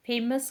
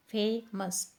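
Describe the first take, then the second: First: Said in the usual way. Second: "famous" split as fay, mus; syllable by syllable. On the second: Shown as a demonstration. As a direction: sound out "famous" in two separate beats. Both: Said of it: "टू syllable word है".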